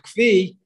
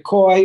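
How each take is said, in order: First: The word is said with a 'v', as 'kvee'. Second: The word is said as one syllable, 'koy'. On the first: "or the kvi" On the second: "There's two different ways to pronounce this. You could say the koi"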